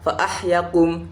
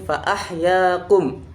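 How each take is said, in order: First: The vowel after the 'y' is cut short. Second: The vowel after the 'y' is held long. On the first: The speaker calls it wrong. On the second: The speaker calls it right.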